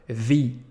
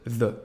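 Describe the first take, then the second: First: The word ends in a long ee vowel. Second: The word ends in a short uh vowel. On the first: A vowel sound follows the article. "dès que vous avez un son de voyelle, juste après, vous allez prononcer le the" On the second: A consonant sound follows the article. "de manière classique"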